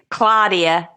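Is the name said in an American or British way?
American. The name is said in an American way. Adapted so local listeners understand the name. "I have to say Claudia"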